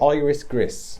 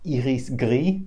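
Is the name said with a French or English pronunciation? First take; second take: English; French. First: It is said with an English pronunciation. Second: It is said with a French pronunciation. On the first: "we'll just say iris gris" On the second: "the proper French way of saying iris"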